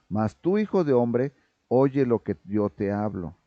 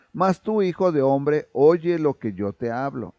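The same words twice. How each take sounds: First: Tender fatherly Lord. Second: Loud, strict Lord's command, still at full force; God's strict voice, before the change; stern commanding Lord. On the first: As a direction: turn to Ezekiel with affection. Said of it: "con cariño". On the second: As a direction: read it as a dry order from above. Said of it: "cambia su tono cuando habla con Ezequiel". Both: Acted.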